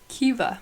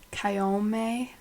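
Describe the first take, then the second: First: The name is said with a 'v' sound. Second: The name is said without a 'v' sound. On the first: The speaker calls it right. "There's no V in that, guys" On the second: The speaker calls it wrong. "is what I would say"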